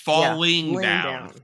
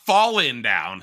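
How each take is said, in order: First: It is said with exaggerated British-style enunciation. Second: It is said in a plain, ordinary way. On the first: The speaker calls it right. "It's falling down" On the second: The speaker calls it wrong. "It's not falling down"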